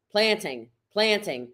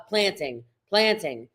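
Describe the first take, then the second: No difference in how they are said.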